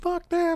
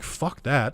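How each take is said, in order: First: It is said in a high childlike voice. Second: It is said in a normal deep adult voice.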